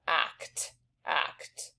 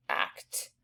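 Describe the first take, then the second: First: Teacher whispering act to hear each sound; whispered act. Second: Teacher whispering act to show the t; whispered act. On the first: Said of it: "we've got three sounds there". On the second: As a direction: act whispered, ending on a crisp t. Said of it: "And you hear the T". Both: Shown as a demonstration.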